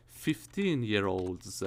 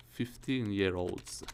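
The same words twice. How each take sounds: The two takes are said the same way.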